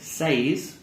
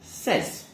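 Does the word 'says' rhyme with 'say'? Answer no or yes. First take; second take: yes; no. First: The vowel sounds like the vowel in say. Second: The vowel does not sound like say's vowel. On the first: The speaker calls it wrong. "when we add the S, we don't say says" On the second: The speaker calls it right. "we actually just say says"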